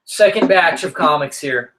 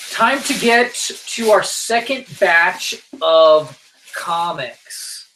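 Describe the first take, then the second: First: Said in the usual way. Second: Slow, stretched segment intro that fades at the end; host introducing the comics segment, mock announcer; drawn-out announcer. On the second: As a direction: announce the next batch like a show host.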